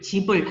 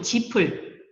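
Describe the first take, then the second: First: The final consonant links as a soft b sound. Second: The final consonant links as an aspirated p sound. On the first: It sounds like the word for house. The speaker calls it wrong. "집을 집을 하면 어떻게 돼요? 집을 지어 지어요" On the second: It keeps the meaning of straw. The speaker calls it right. "바로 이렇게 짚을 뜻을 밝혀야 되잖아요"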